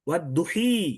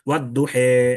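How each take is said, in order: First: The final vowel is a full i sound. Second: The final vowel is an e sound. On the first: The alif has turned fully into ya. The speaker calls it wrong. "ওয়াদ দুহাকে পুরা ইয়া করলে হতো ওয়াদ দুহি" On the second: The alif leans toward ya without becoming it. The speaker calls it right. "বাংলায় একার দিয়ে উচ্চারণ করা"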